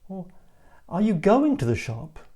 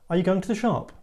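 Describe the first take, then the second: First: The stress falls on the word going. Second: The stress falls on the word shop. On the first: The speaker doubts that the listener really intends to go. "you're not showing me that you have any intention of going" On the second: The speaker asks whether the listener is going shopping now. "So are you going shopping now?"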